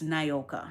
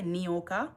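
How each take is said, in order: First: The first syllable sounds like 'nay'. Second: The first syllable sounds like 'nee'. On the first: This is how her mother said the name. "my mother said it's Nayoka" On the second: This is how the spelling seems to read. "it sounds like Nioka with the I, Ni"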